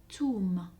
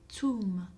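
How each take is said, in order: First: The word begins with a hard t sound. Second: The word begins with a hard t sound.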